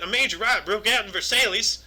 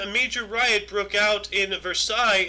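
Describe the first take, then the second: First: It is said in a Southern American accent. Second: It is said in the speaker's ordinary accent.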